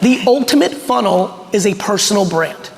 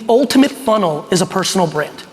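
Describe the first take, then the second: First: It is said slowly. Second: It is said at normal speed.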